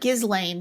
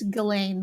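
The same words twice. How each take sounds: First: The name is said with the S sounded. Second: The name is said with the S silent. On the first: The speaker calls it wrong. "it looks like" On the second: The speaker calls it right. "the H is silent and the S is silent"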